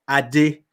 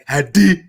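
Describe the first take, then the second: First: The name is said lightly, without heavy emphasis. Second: The name is said with heavy, exaggerated emphasis. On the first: The speaker calls it right. "The right pronunciation is [name]" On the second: The speaker calls it wrong. "they're like, Ade. I'm like, don't put so much emphasis on it"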